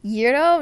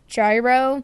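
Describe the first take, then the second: First: It is said with the Greek pronunciation. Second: It is said as the English spelling suggests. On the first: The speaker calls it right. "The proper pronounce, pronunciation is gyro" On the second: The speaker calls it wrong. "not gyro. It looks like gyro"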